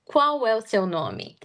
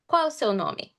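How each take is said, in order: First: The phrase is spoken slowly, words kept apart. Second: The phrase is spoken quickly, words run together. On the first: "I'm going to say it slower" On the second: "Now I'm going to say it faster"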